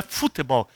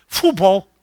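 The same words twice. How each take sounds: First: Said in the usual way. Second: "futebol" squeezed into two syllables, FU-BOL; "futebol" as a clipped "fubol"; American-style pronunciation. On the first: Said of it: "aprendi com a minha netinha antes de ontem que não é futebol". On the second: Shown as a demonstration. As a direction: say "futebol" without the middle "te", like English football. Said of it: "que não é futebol, é futebol".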